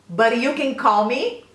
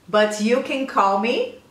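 No difference in how they are said.

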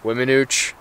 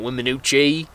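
First: The word ends without a final vowel sound. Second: The word ends with an extra vowel sound. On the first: The speaker calls it right. "Wiminooch, not the E" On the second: The speaker calls it wrong. "so it's not Wiminooche"

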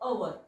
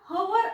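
First: The word begins directly with a vowel. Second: The word begins with an h sound. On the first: The speaker calls it right. "याचा उच्चार होतो अवर" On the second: The speaker calls it wrong. "हा आपण हवर असा उच्चार करत नाही"

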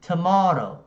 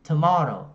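No difference in how they are said.

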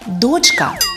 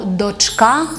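First: The stress is on the first syllable. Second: The stress is on the second syllable. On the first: This form is distorted by another language. The speaker calls it wrong. "то спотворене під впливом російської мови" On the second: This is the literary standard form. The speaker calls it right. "має наголос на другому складі"

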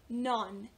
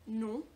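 First: The final n sound is clearly pronounced. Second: Nasal vowel with no final n sound. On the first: The speaker calls it wrong. "they pronounce the end at N at the end" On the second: The speaker calls it right. "you don't pronounce the last N, so it's, and you get really nasally about it"

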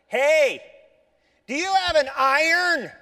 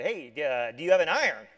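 First: It is said noticeably louder. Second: It is said at a normal, quieter volume.

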